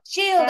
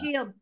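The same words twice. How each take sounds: First: It is said in a normal voice. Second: It is said in a very deep voice.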